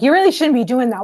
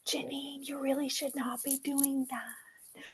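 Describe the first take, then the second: First: It is said in a harsh, scolding voice. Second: It is said in a small, gentle voice.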